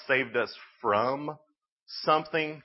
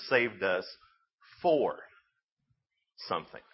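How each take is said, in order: First: "from" drawn out, then a pause; "from" stretched and held apart from "something"; stress on "from". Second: "for" set alone between long pauses; pause, land "for", pause, then lower "something"; stress on "for". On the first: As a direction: lean slowly on "from", pause before "something". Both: Real, not acted. Contrasts saved from with saved for.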